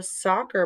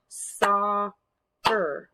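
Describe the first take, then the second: First: Said in the usual way. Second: SOC, pause, CER; syllable by syllable. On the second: Shown as a demonstration. Teacher cueing children to clap, "Soccer" split in two. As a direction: draw "Soccer" out as two separate beats. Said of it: "clap out parts of the words".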